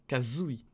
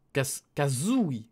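First: Said in the usual way. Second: "Kazooie" stretched slowly, syllable by syllable; slow katakana reading. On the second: Shown as a demonstration. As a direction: sound out "Kazooie" carefully. ("Kazooie" étiré lentement)

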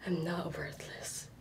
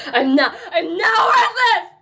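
First: Soft unvoiced whisper, much softer; whispered affirmation. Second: High, loud cry with a laugh in it; defiant shout. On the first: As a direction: breathe it to herself. Whispered then shouted affirmation. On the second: Acted. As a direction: yell it out, half laughing half crying.

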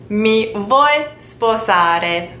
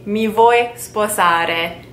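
First: Mi vuoi sposare drawn out even slower, each syllable held; even slower repeat. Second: Mi vuoi sposare said very slowly, syllable by syllable; slow teaching demo. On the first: Teacher repeating the proposal slowly for learners. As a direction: stretch the question out for learners. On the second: Teacher to learners proposing in Italian, very slow. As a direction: slowly model the question for learners. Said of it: "you would have to say". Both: Shown as a demonstration.

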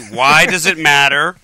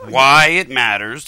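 First: WHY DOES IT MATTER slow and loud, each word separate; slowly. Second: WHY IT MATTERS drawn out word by word; slowly. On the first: Host pressing his rambling co-host for an answer, slowly. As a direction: hammer out the question word by word. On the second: Host reminding his rambling co-host of the question, slowly. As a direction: spell it out at a crawl. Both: Real, not acted. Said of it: "let's say it slowly".

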